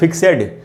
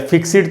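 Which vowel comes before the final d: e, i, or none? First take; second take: e; i. First: An e vowel is heard before the d. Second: An i vowel is heard before the d. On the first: "इसको फिक्सेड या फिक्सिड तो हम नहीं पढ़ रहे" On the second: "इसको फिक्सेड या फिक्सिड तो हम नहीं पढ़ रहे"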